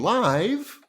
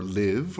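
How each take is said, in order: First: LIVE said to rhyme with five; long-i live. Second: LIVE said to rhyme with give; short-i live. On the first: Teacher naming the software, "live" with a long i. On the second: Teacher offering another pronunciation, "live" with a short i. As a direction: say "live" with a short i, offhand and lower. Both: Shown as a demonstration. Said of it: "however you want to pronounce it".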